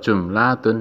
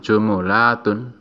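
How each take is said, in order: First: The m is followed by no vowel. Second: The m is followed by a u vowel. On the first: "mimnya disukun" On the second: "mimnya didomah"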